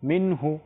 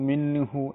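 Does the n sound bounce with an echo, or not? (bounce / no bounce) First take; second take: no bounce; bounce. First: The n sound is clear without an echo. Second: The n sound bounces with an added echo. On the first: The speaker calls it right. "স্পষ্ট" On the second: The speaker calls it wrong. "এভাবে কলকলা হবে না"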